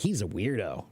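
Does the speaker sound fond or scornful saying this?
scornful. It is said in a scornful, disapproving tone. The person is looked down on. "that's derogatory"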